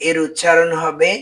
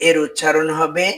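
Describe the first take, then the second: No difference in how they are said.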